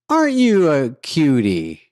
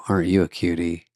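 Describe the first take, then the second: First: It is said in a light, breezy way. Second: It is said in an intense, creepy way.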